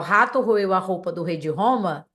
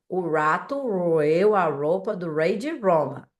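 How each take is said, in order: First: The R sounds are pronounced the Portuguese way. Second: The R sounds are pronounced the English way. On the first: "ao invés de falar" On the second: "no inglês, o som do R ficaria"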